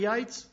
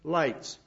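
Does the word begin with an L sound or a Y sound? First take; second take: Y sound; L sound. First: The word begins with a Y sound. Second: The word begins with a clear L sound.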